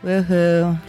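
It sounds insincere and flat.

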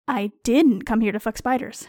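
The word "didn't" carries the strongest stress. I deny the accusation that I came for that. "You seem sure I am here solely to fuck spiders, and I resent the implication"

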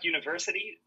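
The T is swallowed, softened.

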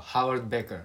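It is said with an English accent, with H.

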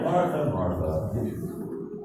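It is said in a warm, tender tone.

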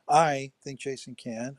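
The stress is on the word 'I'.

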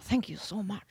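It is said in a deep, gravelly put-on voice. The speaker calls it wrong. "I don't know why I was Liam Neeson all of a sudden"

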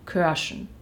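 The vowel is rounded, like German ö. "Ich sage auf Braunschweigisch"

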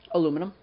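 The word is said with four syllables. This is the American form. "Aluminum is what I would say"

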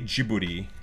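The name is said with a Japanese pronunciation. "Like in Japanese, they say Ghibli"

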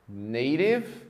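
The t is a quick tap like an r. "No inglês norte-americano, provavelmente elas vão soar assim"

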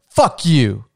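It is said in a hard, threatening tone. It is a real hostile insult. "my tone is very it's very threatening"

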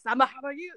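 The name is said in an exaggerated, mocking manner. The name is being turned into a joke. The speaker calls it wrong. "they kept saying it, like, ... in this, ... gross way"

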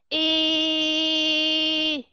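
The pitch stays level through the vowel. "Còn đi ngang là như thế này"

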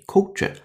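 It is said in a British accent. "英音"

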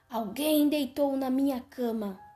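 It is shouted in a strong, deep voice. "gritou o papai urso com sua voz forte e grossa"

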